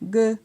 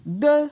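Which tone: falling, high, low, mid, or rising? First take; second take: mid; high. First: The syllable is said on a mid tone. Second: The syllable is said on a high tone. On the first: "Pour un ton moyen" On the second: "Pour un ton haut"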